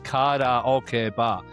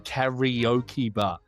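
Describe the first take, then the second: First: Karaoke is said with Japanese pronunciation. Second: Karaoke is said with English pronunciation. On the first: "if it was in Japanese, you should say karaoke bar" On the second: "I say karaoke bar"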